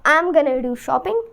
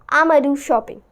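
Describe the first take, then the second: First: 'Going to' is shortened to 'gonna'. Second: 'I'm going to' is squeezed into 'I'ma'.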